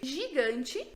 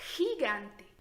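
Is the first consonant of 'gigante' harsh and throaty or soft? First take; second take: soft; harsh. First: The first consonant is a soft buzzing 'zh' sound. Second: The first consonant is a harsh throaty 'h' sound. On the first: This is how the word sounds in Portuguese. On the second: This is how the word sounds in Spanish.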